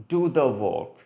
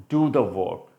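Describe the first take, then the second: Both takes have the same delivery.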